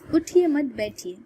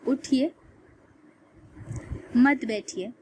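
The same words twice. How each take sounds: First: The pause comes after 'mat', before 'baithiye'. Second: The pause comes after 'uthiye', before 'mat'. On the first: The listener is told to sit down. "इसका मतलब हुआ कि बैठ जाइए।" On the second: The listener is told to get up. "मतलब अब बन रहा है कि उठ जाइए।"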